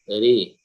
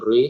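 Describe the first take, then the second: First: The r is pronounced light and thin. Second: The r is pronounced heavy and thick. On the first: The speaker calls it right. "roknya tipis" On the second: The speaker calls it wrong.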